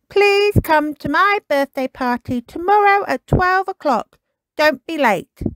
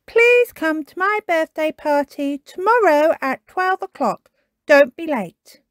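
First: High eager puppy voice reading out his words; proud little dog spelling out his invite; young Kipper, pleased with himself; Kipper writing his invitation. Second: Higher, lightly voiced friend reading; Tiger reading. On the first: Acted. Kipper paints party invitation. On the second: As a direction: read the note aloud as Tiger. Tiger reads the invitation.

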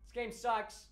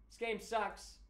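No difference in how they are said.

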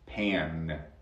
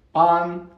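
First: "pan" with a nasal a sliding toward e; English pan. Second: "pan" with an open Spanish ah, high and loud; Spanish-style pan. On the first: Teacher corrects to the English word, nasal English-vowel "pan". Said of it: "No es pan, pan". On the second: Teacher shows learners what it is not, loud Spanish-vowel "pan". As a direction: hit "pan" with a pure Spanish a, as the wrong take. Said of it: "No es pan". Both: Shown as a demonstration.

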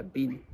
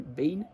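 First: "been" shortened to "bin"; quick casual "been", like "bin"; Australian pronunciation. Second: Said in the usual way. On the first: Shown as a demonstration. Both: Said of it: "sería".

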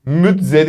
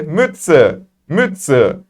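First: Slow "Mütze" as müt-ze with buzzing z; wrong reading. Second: "Mütze" as müt-tse; correct German Mütze. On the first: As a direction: misread "Mütze" with a voiced z. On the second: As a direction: say "Mütze" with a hissed ts. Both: Shown as a demonstration. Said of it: "Mütze değil de".

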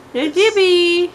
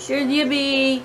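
First: Cooing at cat. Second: Said in the usual way. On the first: Real, not acted. Owner cooing at her cat Yippee, high baby talk.

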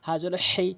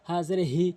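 First: "হেই" squeezed from mid-throat; pressed h. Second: "হি" with light unpressed breath; easy h. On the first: Teacher contrasting letters, "হেই" with pressed throat h. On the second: Teacher contrasting letters, "হি" with relaxed h. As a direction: say "হি" with a plain h. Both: Shown as a demonstration. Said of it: "কীভাবে পড়ছি একটু মনোযোগ সহকারে".

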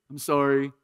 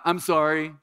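First: Mock half-hearted kid apology; kid's empty sorry. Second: Said in the usual way. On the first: Pastor mimics his kids' careless sorry, half-hearted. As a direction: toss off a hollow sorry like a child. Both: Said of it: "like my kids do".

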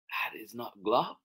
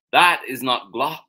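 First: Said in the usual way. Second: Loud, raised correction from Mouse; indignant correction. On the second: Acted. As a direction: correct it forcefully, lifted pitch. Mouse corrects, first reading.

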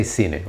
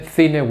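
First: Cine with an s sound, SEE-neh; the way not to say cine, with s; wrong cine. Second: Cine slow, with a th sound, THEE-neh; Spanish cine. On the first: Teacher showing the wrong Spanish cine. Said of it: "we don't say cine". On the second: Teacher showing the right Spanish cine. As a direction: say cine slowly with th. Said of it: "So we say cine". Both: Shown as a demonstration.

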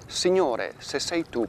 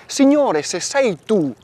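First: Said in the usual way. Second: "Signore" cried out high and loud, then "se sei tu" pressing; Peter's plea. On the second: Acted. Priest voicing Peter calling Jesus on the water, urgent loud plea. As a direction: call "Signore" across the water, much higher and louder.

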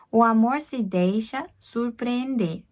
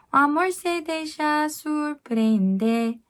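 First: "O amor se deixa surpreender" spoken slowly; careful slow reading; slow spoken line. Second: High, slow sung "O amor se deixa surpreender"; slow sung demonstration; sung line. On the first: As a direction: say it slowly for pronunciation. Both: Shown as a demonstration. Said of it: "여기서 발음할 때".

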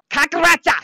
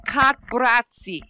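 First: Kakbratsa shouted high and loud, hard on the ka; forceful German retry. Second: Slow, careful try at Kakbratsi; careful German attempt. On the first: Told to redo the German word, now shouting it. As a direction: bark out Kakbratsa with a hard, punched ka. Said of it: "Or more emphasis on the ka?". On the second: Streamer trying German for her viewers, slow and careful. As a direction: sound out Kakbratsi syllable by syllable. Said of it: "Is that how I say it?". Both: Shown as a demonstration.

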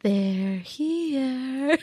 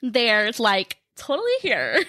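First: Put-on eerie, drawn-out little-girl line; sing-song horror-film child; creepy little girl. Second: Put-on playful Valley Girl take on a creepy line; exaggerated Valley Girl lilt. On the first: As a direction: stretch it out like a spooky movie child. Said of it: "Do it again". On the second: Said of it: "That's my Valley Girl impression".

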